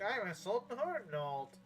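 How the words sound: It is said in a put-on character voice. The speaker calls it right. "I gotta use the right voice"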